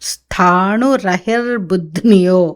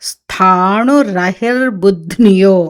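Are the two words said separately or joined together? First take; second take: joined; joined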